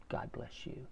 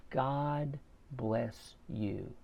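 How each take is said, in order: First: Breathy whisper, barely voiced; a hushed, whispered reply; whispered blessing. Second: Slow, soft and heartfelt; a gentle, slowed-down thank-you; tender blessing. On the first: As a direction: whisper it back to him. Repairman answers the blessing. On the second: Retold or imitated. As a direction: bless him quietly, drawing it out. Thanking the repairman on birthday.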